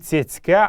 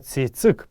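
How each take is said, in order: First: The word ends with a -ka sound. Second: The word ends with an -ik sound. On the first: This is the form heard in many dialects. The speaker calls it wrong. "Не цецка" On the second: This is the classical form of the word. The speaker calls it right. "а именно цецик, правильно это слово"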